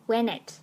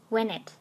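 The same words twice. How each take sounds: No difference in how they are said.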